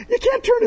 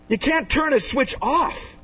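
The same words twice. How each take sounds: First: Laughing. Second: Said in the usual way. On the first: Acted. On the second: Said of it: "Did you know that?".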